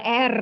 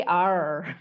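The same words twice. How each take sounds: First: "R" said "err" with a trill; Indonesian letter R. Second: "R" said "arr", no trill; English letter R. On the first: Teacher showing what to avoid, Indonesian R. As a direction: roll the "R" loudly. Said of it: "Bukan R". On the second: Teacher correcting for students, English R. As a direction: draw out "R" with a curled tongue. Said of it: "tapi R". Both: Shown as a demonstration.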